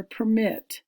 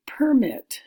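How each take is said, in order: First: "permit" said as per-MIT, stress on the second syllable; "permit" with the weight on MIT, like the verb. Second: "permit" said as PER-mit, stress on the first syllable; "permit" with the weight on PER, like the noun. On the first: Teacher offering the other reading, "permit" stressed on MIT. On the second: Teacher reading the word list, "permit" stressed on PER. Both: Shown as a demonstration. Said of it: "Permit is the verb".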